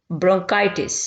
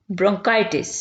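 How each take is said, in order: Both takes have the same delivery.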